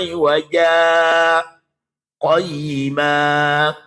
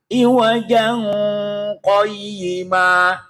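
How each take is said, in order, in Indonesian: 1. Jeda singkat yang terengah-engah memisahkan kedua kata. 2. Kedua kata tersambung tanpa jeda. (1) "kudu zaman baca sakta, wakaf sakta" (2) "nggak baca sakta"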